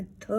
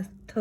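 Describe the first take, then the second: First: "थ" held long and soft, tongue resting on the teeth; soft drawn-out th sound. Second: "थ" clipped quick and quiet; a brief tap of "थ", no hold; short th sound. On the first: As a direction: breathe out a slow, gentle "थ". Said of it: "जीभ के ऊपर रख के धीरे से बोलना". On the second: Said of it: "या शॉर्ट हैंड में बोलना". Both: Shown as a demonstration.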